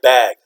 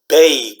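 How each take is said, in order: First: The vowel is a short 'a' sound. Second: The vowel is a long 'a' sound. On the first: The speaker calls it right. "You say, "This I bag grocery every day. I bag."" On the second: The speaker calls it wrong. "You don't say bag, right? You don't say that"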